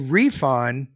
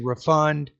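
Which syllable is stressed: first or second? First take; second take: first; second. First: The stress is on the first syllable. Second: The stress is on the second syllable. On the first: The word is used as a noun. "that's a noun" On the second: The word is used as a verb. "that's going to be a verb there"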